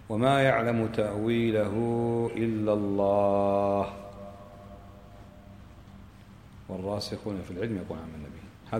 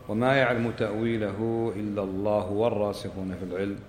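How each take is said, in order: First: There is a pause after the word Allah. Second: It runs on without a pause after Allah.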